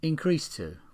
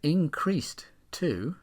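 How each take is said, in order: First: The final d sound is dropped. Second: The final d sound is clearly pronounced.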